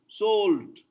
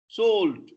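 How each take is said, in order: The two takes are said the same way.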